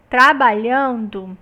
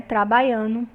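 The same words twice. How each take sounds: First: Trabalhando bem articulado, com lh e nd claros; forma monitorada. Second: Trabalhando dito como "trabaiano", sem o d; variante rural. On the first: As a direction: diga trabalhando devagar, com lh e nd nítidos. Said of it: "Olha só essa palavrinha". (trabalhando na forma padrão, bem pronunciado) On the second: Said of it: "O aluno usou uma variante rural". (trabalhando em variante rural, "trabaiano") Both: Shown as a demonstration.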